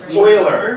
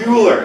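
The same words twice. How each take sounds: First: The name begins with an 'oil' sound. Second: The name begins with a 'you' sound. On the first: The speaker calls it right. "it's pronounced oil" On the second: The speaker calls it wrong. "It's not Euler"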